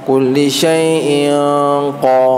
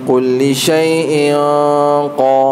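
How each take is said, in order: Both takes have the same delivery.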